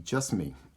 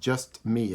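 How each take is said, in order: First: Run together as one word without T. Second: Two separate words with the T sound. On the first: "squished together, take out the T" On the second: "two words with a T in it"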